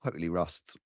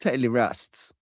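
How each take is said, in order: First: Low, much softer grumble; low rueful mumble; mumbled aside. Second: Said in the usual way. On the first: Shown as a demonstration. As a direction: mutter it under your breath, lower.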